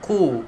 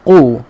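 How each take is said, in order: First: The k sound is light and thin. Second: The k sound is deep and thick. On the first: The speaker calls it wrong. "jangan ku" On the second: The speaker calls it right. "Ku kena tebalkan ... huruf qaf"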